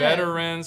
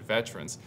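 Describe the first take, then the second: First: The word is said with three syllables. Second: The word is said with two syllables. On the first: "Is it three syllables" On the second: "or is it two?"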